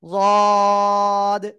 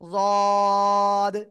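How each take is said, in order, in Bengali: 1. প্রথম ব্যঞ্জনটি ভারী, জিভের দুই পাশ থেকে হয়। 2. প্রথম ব্যঞ্জনটি ভারী, জিভের দুই পাশ থেকে হয়।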